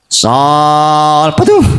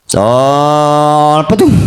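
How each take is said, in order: The two takes are said the same way.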